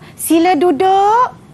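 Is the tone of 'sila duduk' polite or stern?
polite. It is said in a gentle, polite tone. A courteous invitation for the pupils to sit. "Jadi bunyinya seperti sopan"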